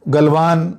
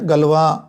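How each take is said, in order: First: The name ends with an n sound. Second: The name ends on a vowel, without n. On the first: "मैं गलवान का उच्चारण करूंगा उसको" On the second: "अलग अलग उच्चारण है"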